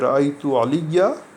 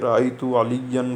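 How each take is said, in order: First: The last word ends in a long a, then stops. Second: The last word ends in an n sound, without stopping. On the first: The speaker pauses after this word. "हम बीच में रुक जाएं तो हम कहेंगे" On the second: The speaker reads on without stopping. "जहाँ पर अलिफ को छोड़ दिया हमने"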